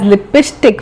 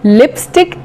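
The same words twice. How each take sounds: First: It is said with a Bihari accent. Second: It is said with a standard English accent.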